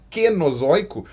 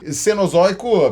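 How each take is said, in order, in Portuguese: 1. A palavra começa com som de K. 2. A palavra começa com som de S.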